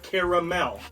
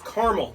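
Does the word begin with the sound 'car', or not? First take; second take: not car; car. First: The word does not begin with 'car'. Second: The word begins with the sound 'car'. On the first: The speaker calls it wrong. "not caramel" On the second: The speaker calls it right. "it is caramel, C A R spells car"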